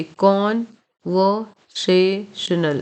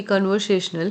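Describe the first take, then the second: First: conversational broken slowly into KON - vo - SAY - shnul; very slow conversational, weight on first and third syllables; stressed and unstressed syllables. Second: Said in the usual way. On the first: Shown as a demonstration. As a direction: punch KON and SAY in conversational, pausing between syllables. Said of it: "ये stress है और ये unstress है". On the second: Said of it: "इस word को देखिए".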